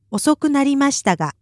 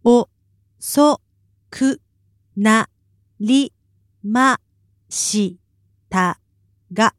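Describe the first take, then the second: First: Said in the usual way. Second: 遅くなりましたが split into separate syllables, a pause after each; staccato syllables. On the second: Shown as a demonstration. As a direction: say 遅くなりましたが one syllable at a time. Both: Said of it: "give it to us syllable by syllable".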